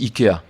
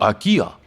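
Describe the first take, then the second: First: The name is pronounced the French way. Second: The name is pronounced a foreign way. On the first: This is how people say it in France. "Nous, on dit IKEA" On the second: This is how people say it in other countries. "dans d'autres pays, ils disent IKEA ou AKIA"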